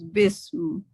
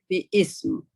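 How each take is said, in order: First: The two parts merge into one syllable. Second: The two parts are said as separate syllables.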